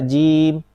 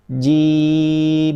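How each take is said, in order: First: The final m is clipped and barely heard. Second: The final m flows on for too long. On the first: "tidak ada sifatnya dari huruf mim" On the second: "terlalu rokhawah"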